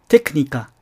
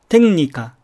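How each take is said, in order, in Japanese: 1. 最初の音節はkで終わります。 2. 最初の音節はnで終わります。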